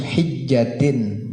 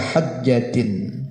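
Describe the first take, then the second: First: The first vowel is an 'i' sound. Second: The first vowel is an 'a' sound. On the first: "Bacanya yang bagus hijjatin dengan kasrohnya ha" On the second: "dan boleh juga dibaca hajjatin"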